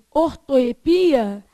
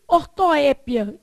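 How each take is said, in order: First: "ortoepia" stressed on PI; stress variant. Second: "ortoépia" stressed on the open É; stress variant. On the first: Teacher showing the other accepted form, "ortoepia" stressed on PI. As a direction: land on PI in "ortoepia". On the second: Teacher showing one accepted form, "ortoépia" stressed on É. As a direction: hit the É in "ortoépia". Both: Shown as a demonstration. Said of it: "que também se pode dizer".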